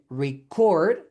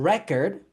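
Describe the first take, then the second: First: The stress is on the second syllable. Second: The stress is on the first syllable. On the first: It is the verb. "the verb, the stress is in the second syllable" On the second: It is the noun. "the noun, the stress is in the first syllable"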